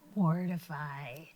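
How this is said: It is said in a scary voice.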